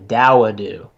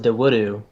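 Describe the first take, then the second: First: The first syllable rhymes with 'cow'. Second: The first syllable does not rhyme with 'cow'. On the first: The speaker calls it right. "It's actually Dawudu. So you pronounce it like like that, like a D O W" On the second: The speaker calls it wrong. "I thought it was Dawudu, but it's not"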